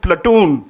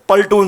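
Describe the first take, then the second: First: The word begins with the sound 'pla'. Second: The word begins with the sound 'pal'. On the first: The speaker calls it right. "से प्लेटून" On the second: The speaker calls it wrong. "Don't say पल्टून"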